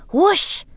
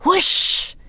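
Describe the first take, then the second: First: High, loud wind sound, rising; playful loud wind noise; loud whoosh. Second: High, breathy wind sound, no voice; whispered wind noise; whispered whoosh. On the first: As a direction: blow it out like a gust of wind. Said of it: "said Annie loudly". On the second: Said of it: "Annie whispered back". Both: A narrator's reading.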